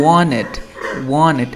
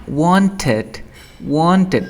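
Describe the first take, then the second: First: "Wanted" as WON-ed, no t after the n; dropped T. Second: "Wanted" with the t clearly released; full T. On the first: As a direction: leave the t out of "Wanted". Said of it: "una N antes de una T". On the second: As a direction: say "Wanted" as WON-ted, sounding the t. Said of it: "con T". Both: Shown as a demonstration.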